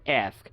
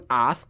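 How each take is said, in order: First: It is said in an American accent. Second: It is said in a British accent.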